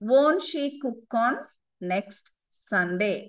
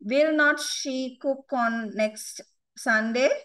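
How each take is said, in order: First: The words are contracted into one syllable, won't. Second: The two words will not are said in full.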